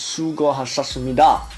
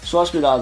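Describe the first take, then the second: First: The phrase is pronounced carefully and fully. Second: The phrase is pronounced loosely and sloppily. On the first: The speaker calls it right. "the real way of saying it is" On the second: The speaker calls it wrong. "I still can't say it right... I really just say"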